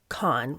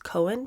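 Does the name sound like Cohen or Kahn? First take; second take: Kahn; Cohen. First: The name is said as one syllable, like Kahn. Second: The name is said as two syllables, like Cohen. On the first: The speaker calls it right. "somebody in the comments corrected me, so it's Kahn" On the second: The speaker calls it wrong. "I had mispronounced his name last episode. I think I, I pronounced it as Cohen"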